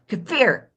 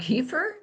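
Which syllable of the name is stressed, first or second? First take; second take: second; first. First: The stress is on the second syllable. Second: The stress is on the first syllable.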